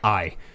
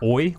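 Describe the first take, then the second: First: The vowel sounds like 'eye'. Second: The vowel sounds like 'oy'. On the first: "a specific sound like aisle, like like I" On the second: "they say it more like oi, like oil or boy"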